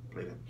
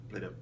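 No difference in how they are said.

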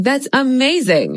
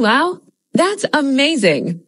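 First: Said in the usual way. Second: Lively, slow, amazed delivery; expressive wow. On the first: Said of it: "than just saying". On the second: Shown as a demonstration. Teacher showing how an excited learner reacts. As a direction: sell the wow with real expression. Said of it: "adds a lot more expression than just saying".

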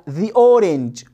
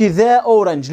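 First: "the" said as "thee" before "orange"; slow, corrective "thee orange"; corrected article sound. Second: "the" said as open "theh" before "orange"; wrong article sound. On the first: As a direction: say "the orange" with an ee, slowly. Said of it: "لا، the orange". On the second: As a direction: say "the orange" with eh, not ee, in "the". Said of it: "ما أقولش". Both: Shown as a demonstration.

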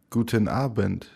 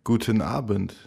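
Both takes have the same delivery.

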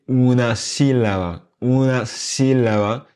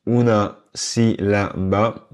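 First: "sílaba" stressed on a long first syllable, SI-la-ba; accent sur si. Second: "sílaba" slowly, syllable by syllable, all equal; sans accentuation. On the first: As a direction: punch SI in "sílaba", slowly. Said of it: "On va accentuer le si". (« sílaba » accentué sur la première syllabe, SI-la-ba) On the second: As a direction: give si, la, ba equal weight in "sílaba". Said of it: "je fais des efforts pour ne pas accentuer". (« sílaba » lentement, syllabes détachées et égales, sans accent) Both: Shown as a demonstration.

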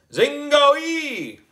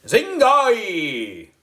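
First: Higher still, drawn-out loud spell word; wizard voice. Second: High, drawn-out magic word called loud; wizard voice. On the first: Boy wizard repeating the magic word, even higher wizard call. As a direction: ring out the spell again. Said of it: "I said it a second time". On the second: Boy wizard calling out the magic word, high loud wizard call. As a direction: intone it like a spell. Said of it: "In my best wizard voice, I called out". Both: A narrator's reading.

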